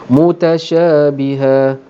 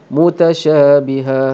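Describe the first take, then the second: The two takes are said the same way.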